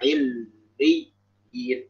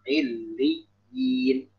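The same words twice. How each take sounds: First: The doubled consonant is barely held at all. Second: The doubled consonant is held a moderate length. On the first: The speaker calls it wrong. "jangan juga terlalu nggak" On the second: The speaker calls it right. "cukup proporsional"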